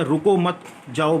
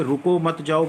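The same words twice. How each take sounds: First: "रुको मत", a clear break, then "जाओ"; pause after मत. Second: "रुको मत जाओ" said in one run, no break after मत; run-together phrasing. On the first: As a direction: split it as "रुको मत" / "जाओ", pausing before जाओ. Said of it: "या रुको मत जाओ बोला गया है". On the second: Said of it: "वही फिर से सेंटेंस बोल रहा हूँ". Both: Shown as a demonstration.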